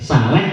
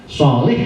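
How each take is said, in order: First: It begins with a plain, light s sound. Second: It begins with a heavy, emphatic s sound. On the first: It means a person with diarrhea. The speaker calls it wrong. "Kalau pakai sin" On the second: It means a good person. The speaker calls it right. "shot sama sin aja kan beda kan"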